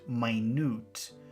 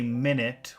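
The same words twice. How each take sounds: First: It is said as the word for tiny. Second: It is said as the everyday time word. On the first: It means very detailed or very small. The speaker calls it right. "if you pronounce it minute, that means very detailed or very small" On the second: It means sixty seconds. The speaker calls it wrong. "you want to say minute, which means sixty seconds"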